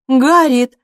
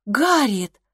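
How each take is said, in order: First: «Гарриет!» cut off sharply, much louder; resolute cry. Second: «Гарриет!» said with only a light lift, barely raised; a mild, shocked call of her name; stunned exclaim. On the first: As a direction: stop her mid-sentence, firmly. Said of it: "вскричала Эмма с решимостью". (решительный громкий окрик «Гарриет!») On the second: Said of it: "вскричала Эмма". (ошеломлённо, негромко: «Гарриет!») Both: A narrator's reading.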